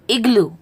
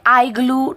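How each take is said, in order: First: The first vowel is a short, quick sound. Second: The first vowel is a long 'eye' sound. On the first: The speaker calls it right. "It is" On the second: The speaker calls it wrong. "You cannot say"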